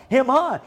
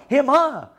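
First: Sneering him, her; mocking. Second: Louder jeering him, her; mocking again. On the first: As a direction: say "Him, her" with a jeer, stress on her. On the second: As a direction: spit out "Him, her" with scorn, "her" stressed. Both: Real, not acted.

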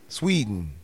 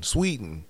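First: "Sweden" with a put-on Swedish lilt; joking Swedish-accented "Sweden"; mock Swedish accent. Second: Said in the usual way. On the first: Shown as a demonstration. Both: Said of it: "I think that's how they say it".

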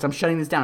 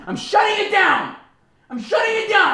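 First: Said in the usual way. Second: Much higher, louder comic yell; mock shout. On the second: Real, not acted. Shouting to shut down his own political rant. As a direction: bellow it to cut yourself off.

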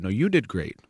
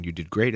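First: Bat it back with strong stress on "you"; compliment deflected back. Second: Said in the usual way. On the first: Acted. Replying to praise by returning it, stress on "you". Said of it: "and said". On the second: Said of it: "If you just tell someone".

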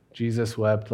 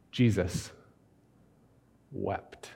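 First: "Jesus wept" rattled off quickly, as if skipping past it; brushed-off reading. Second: "Jesus" then a long pause, "wept" soft and slow; solemn slow reading. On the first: Retold or imitated. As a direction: toss the verse aside to get to the miracle. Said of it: "This is the part that we like to minimize". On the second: Shown as a demonstration. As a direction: let the two words hang in reverent hush. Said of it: "a whole sermon on two words".

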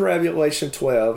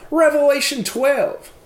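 First: Said in the usual way. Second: "Revelation twelve" in a high, imitated child's voice, said out loud; daughter's voice. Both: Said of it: "she's kinda saying this out loud".

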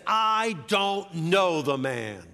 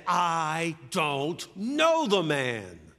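First: Slow, loud, high emphatic denial; sworn denial. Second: Very slow, drawn-out shouted denial; cursing oath. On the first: Peter denies Jesus on oath, emphatic denial. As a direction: swear it, drawing out each word. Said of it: "Peter takes an oath". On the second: Peter curses and denies Jesus, slow shouted oath. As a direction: shout it, stretching every word to breaking point. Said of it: "called down curses and swore another oath". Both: Acted.

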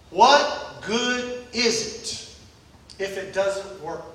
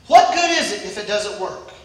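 First: Drawn-out, very slow, much softer What good is it; slow quiet question. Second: Said in the usual way. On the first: Acted. Preacher asking the church what good it is, slow and hushed. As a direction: let each word of What good is it if it doesn't work sink in.

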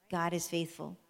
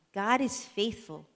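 First: Said in the usual way. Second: God is faithful, slow and proud; slow emphatic declaration. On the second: Shown as a demonstration. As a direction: declare it slowly to the kids.

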